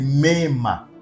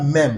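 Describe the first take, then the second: First: The word ends with an added a vowel. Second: The word ends on the m sound. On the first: The speaker calls it right. "la bonne prononciation, c'est mema" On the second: The speaker calls it wrong. "ce n'est pas même"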